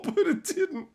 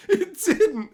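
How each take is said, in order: First: Very high giggly denial; laughing. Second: Very high and louder, cracking up; louder laugh. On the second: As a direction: punch it while laughing. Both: Real, not acted. Laughing at surprise success.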